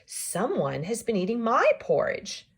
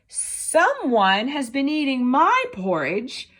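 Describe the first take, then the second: First: It is said in a middle-sized voice. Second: It is said in a tiny, small voice.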